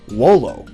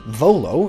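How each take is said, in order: First: The word begins with a W sound. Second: The word begins with a V sound. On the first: The speaker calls it right. "is more accurately pronounced wolo" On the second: The speaker calls it wrong. "this Latin word"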